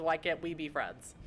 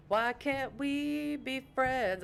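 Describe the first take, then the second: First: Said in the usual way. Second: Slow, high sung line; mock crooning, high and stretched; playful singing. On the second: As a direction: sing it drawn out and playfully. Bursts into the song title.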